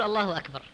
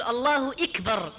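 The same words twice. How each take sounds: First: Said in the usual way. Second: إكبر opening with "i": ikbar, slowly; slow, deliberate "Allahu ikbar" for الله إكبر; kasra on hamza. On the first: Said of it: "بدلا من يقول". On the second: Shown as a demonstration. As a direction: say إكبر with an i in place of the a. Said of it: "أحيانًا بعضهم يقول".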